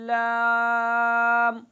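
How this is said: The letter name is said through the mouth. The speaker calls it right. "मुंह से आवाज़ निकालना"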